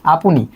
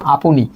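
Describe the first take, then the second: The two takes are said the same way.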